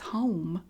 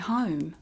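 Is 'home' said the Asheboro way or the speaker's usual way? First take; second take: usual; Asheboro. First: The vowel has the speaker's own hometown sound. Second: The vowel has the local Asheboro sound. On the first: "where I grew up is home" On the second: "but they say home"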